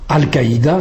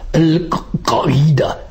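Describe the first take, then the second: First: It is said with plain French consonants. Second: It is said with deep emphatic Arabic consonants. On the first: "Quand nous disons" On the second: "le son original"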